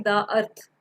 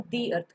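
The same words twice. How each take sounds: First: "दा अर्थ" mit kurzem da vor Vokal; "दा" als da, nicht dee, vor "earth"; wrong da before vowel. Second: "दी earth" with a long dee; dee before vowel. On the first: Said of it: "दा अर्थ नहीं कहेंगे". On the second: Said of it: "हम दी अर्थ कहेंगे". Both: Shown as a demonstration.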